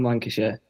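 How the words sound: It is said the way Lancashire locals say it.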